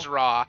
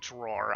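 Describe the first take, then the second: First: The final r sound is dropped. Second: The final r sound is pronounced. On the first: This is how people from Maine say it. "We say draw" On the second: This is how people outside Maine say it. "Yes, a drawer"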